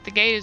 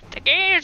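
First: It is said in an American Southern accent. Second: It is said in a crotchety old man's voice. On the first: "I haven't done my southern accent in like a couple years" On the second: "I can't do like crotchety old man"

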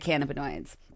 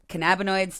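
First: The word begins like 'cannabis'. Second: The word does not begin like 'cannabis'. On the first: The name honours the plant it comes from. The speaker calls it right. "to cannabinoids. These molecules are named after the plant" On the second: The name loses its link to the plant. The speaker calls it wrong. "I switched from cannabinoids"

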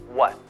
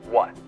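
The two takes are said the same way.

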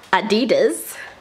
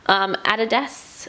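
First: It is said in an American accent. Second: It is said in a non-American accent.

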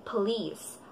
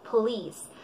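Both takes have the same delivery.

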